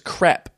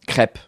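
First: It is said the Australian way. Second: It is said the French way. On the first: "Australians say crepe because crepe sounds like crap" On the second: "And in France?"

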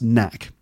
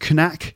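First: The initial K sound is silent. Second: The initial K sound is pronounced. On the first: The speaker calls it right. "it's pronounced knack. ... one of those words with a silent K at the beginning" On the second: The speaker calls it wrong. "it's not pronounced knack"

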